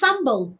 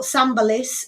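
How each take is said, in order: First: "sambal" as SAM-bul, no -iss ending; corrected two-syllable reading. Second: "sambalis" as one word, ending in -liss; mistaken three-syllable reading. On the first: Host correcting the sauce's name, "sambal" said SAM-bul. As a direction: stop "sambal" cleanly after the L. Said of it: "uh, not sambalis". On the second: Host showing chat the misreading, "sambalis" said as one word. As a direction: run "sambalis" together as SAM-buh-liss. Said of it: "it's just sambal". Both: Shown as a demonstration.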